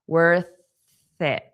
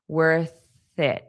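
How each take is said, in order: The two takes are said the same way.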